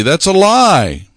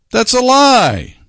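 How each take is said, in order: First: Slow, firm, punched LIE; "lie" stressed and drawn out, falling; emphatic denial. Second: Much higher, slow, "lie" hit hard and falling; louder repeat. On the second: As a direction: repeat it with rising outrage. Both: Shown as a demonstration.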